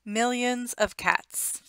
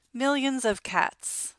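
Both takes have the same delivery.

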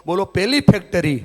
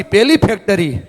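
First: Said in the usual way. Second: Loudly. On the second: Shown as a demonstration. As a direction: call it out louder, rallying the crowd. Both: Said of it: "જોરથી".

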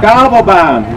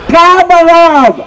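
First: Said in the usual way. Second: Drawn-out loud call. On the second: Real, not acted. Calling out the cable car, drawn out.

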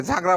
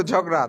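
First: ঝাগড়া with a long open a in the first syllable, jhaa-gra; ঝাগড়া mispronounced with an extra a sound; old wrong pronunciation. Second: ঝগড়া with a short open o in the first syllable, jhog-ra; ঝগড়া, the corrected form after being taught; corrected pronunciation. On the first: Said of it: "যেমন আমি আগে ঝাগড়া বলতাম". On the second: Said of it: "এটা হবে ঝগড়া". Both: Shown as a demonstration.

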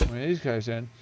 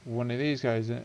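The two takes are said the same way.

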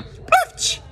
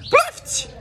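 First: High breathy whoosh of a pop; mock pop sound. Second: High voiced silly pop; voiced pop sound. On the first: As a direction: puff out a high silly pop noise. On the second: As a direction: say it like a cartoon pop, voiced and bright. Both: Shown as a demonstration. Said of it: "acontece assim, ó".

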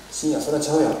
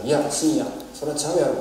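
First: Light Osaka-dialect retort, repeated for clarity; lightly voiced Osaka-ben no, that's wrong; casual Osaka dialect rebuke, barely acted. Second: Light Osaka-dialect retort, quoting the professor; lightly voiced Osaka-ben no, that's wrong; casual Osaka dialect rebuke, barely acted. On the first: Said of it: "ちょっと大阪弁に 訳しているだけですけれども". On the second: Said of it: "今大阪弁で話していますが".

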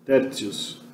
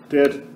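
First: Tertius com T duro, dito baixinho; tertius clássico. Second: Tertius com T dito ts, à italiana; T soa ts. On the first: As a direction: diga Tertius com T claro do latim clássico. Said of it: "provavelmente era tertius mesmo". (Tertius com T seco, sem ts) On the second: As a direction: diga o T de tertius como ts. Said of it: "fazendo T ficar ts". (tertius com tsi em vez de ti) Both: Shown as a demonstration.

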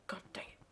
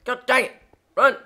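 First: Very soft, under the breath; muttered. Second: High, loud outburst; exclaiming loudly. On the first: Gamer grumbling to himself, muttered. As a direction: say it softly to yourself. Muttered try before shouting it. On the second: Gamer yelling at the game, loud outburst. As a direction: shout it out in short bursts. Louder repeat, calling out at game. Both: Real, not acted.

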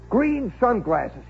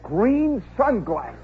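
First: Green sunglasses, slowed right down with weight on green; slow repeat. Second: Said in the usual way. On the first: Shown as a demonstration. Teller lingering on Kowalski's odd gear, slow emphasis. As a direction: let Green sunglasses land slowly, savoring it.

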